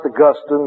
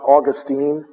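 First: Augustine is pronounced the way the saint's name is. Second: Augustine is pronounced the way the Florida city is. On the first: It names the theologian. The speaker calls it right. "it's pronounced Augustine" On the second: It names the place in Florida. The speaker calls it wrong. "not Augustine"

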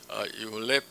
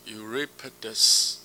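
First: The name is pronounced in Latin style. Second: The name is pronounced in English style. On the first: "用这个拉丁文来发音的话" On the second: "用英文发音"

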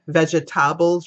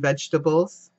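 First: The word is said with a Jamaican rhythm. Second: The word is said with a standard rhythm. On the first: "as my Jamaican instructor said" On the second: "rather than"

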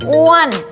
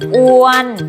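First: The pitch rises high then falls. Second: The pitch stays level in the middle. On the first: "อ้วนไม้โทอ้วน" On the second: "ออัวนออ้วน"

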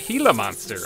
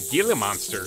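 First: The first word starts with an H sound. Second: The first word starts with a hard G sound. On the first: The speaker calls it right. "You guys have told me that's how you pronounce it" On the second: The speaker calls it wrong. "I said it wrong"

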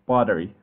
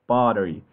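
Both takes have the same delivery.

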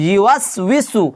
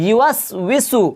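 Both takes have the same delivery.

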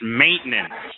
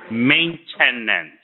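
First: The word is said with few, quick syllables. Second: The word is said with extra added syllables. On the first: The speaker calls it right. "It's maintenance" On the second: The speaker calls it wrong. "you're adding too many syllables"

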